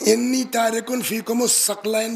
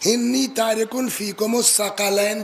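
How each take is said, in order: First: The last word begins with 'thaq' and two syllables. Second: The last word has three syllables, 'tha-qa-layn'. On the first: The singular is a word meaning weight or burden. "अगर सिक़लैन या सकलैन पढ़ा" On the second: The singular is a different word, not the one meaning weight. "लेकिन अगर पढ़ा इन्नी तारिकुन फीकुम अस्सक़लैन तो उसका वाहिद सकल नहीं होगा"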